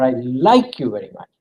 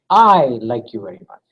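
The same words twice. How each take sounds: First: Like stressed, fast; quick take with like stressed. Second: I stressed, lower voice; low take putting weight on I. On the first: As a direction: rush through it hitting like. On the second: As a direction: lead with a strong I. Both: Shown as a demonstration. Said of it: "totally different meaning".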